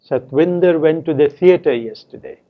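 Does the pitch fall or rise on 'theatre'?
fall. The pitch falls on the word theatre. It is a statement of where he went. "Said with a falling tone on theatre"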